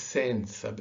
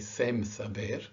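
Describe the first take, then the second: First: The first word ends with a muted nasal N. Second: The first word ends with a full M sound. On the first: The speaker calls it right. "It is sen saber. If anything, it's an N" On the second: The speaker calls it wrong. "a common mistake actually with English speakers will tend to say sem saber"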